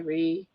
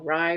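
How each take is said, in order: First: The vowel sounds like 'ee'. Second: The vowel sounds like 'eye'. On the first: The speaker calls it right. "it's pronounced like R E E" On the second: The speaker calls it wrong. "I always go Rye"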